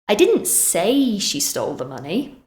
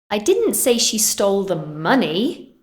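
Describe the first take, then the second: First: The word 'say' carries the main stress. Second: The word 'money' carries the main stress. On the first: It was communicated some other way, not spoken. "Maybe I wrote it instead" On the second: She took something else. "I said she stole something else"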